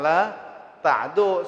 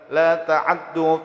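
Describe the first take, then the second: First: No vowel follows the 'ain sound. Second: A quick, shortened vowel follows the 'ain. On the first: "Hafs sekali lagi an Asim membaca dengan sukun ainnya" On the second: "fathahnya itu dibaca dengan ikhtilas. Ikhtilas itu hancap"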